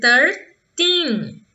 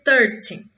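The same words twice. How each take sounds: First: The ending is long and strong. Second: The ending is short and weak. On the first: "entonar de maneira mais forte, mais prolongada, o final da palavra" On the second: "Eu não disse thirteen"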